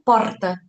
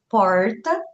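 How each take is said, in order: First: It is said with a southern Brazilian accent. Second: It is said with a strongly pulled interior R. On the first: "para o sul porta" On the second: "aqui mais para o interior nós falamos porta, com R bem puxado"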